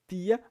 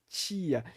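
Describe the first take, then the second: First: The T is a plain, dry stop sound. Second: The T has a full ch-like sound. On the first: "se fosse o som seco do T, seria tia ... o som não é tia" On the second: "mas é tia, que é esse som bem cheio"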